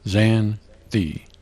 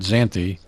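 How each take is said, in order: First: A pause separates the word's two syllables. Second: The word is said smoothly without a pause. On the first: The speaker calls it right. "two syllables separated by a pause" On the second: The speaker calls it wrong. "this is not"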